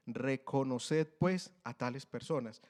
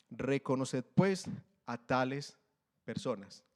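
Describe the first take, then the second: First: Reconoced drawn out slowly, then pues, a tales personas; slow down to make it sink in; slow, emphatic reread. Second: Said in the usual way. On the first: Shown as a demonstration. Preacher rereads the verse to the church, slow and weighty. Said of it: "Le leo nuevamente ese pedazo".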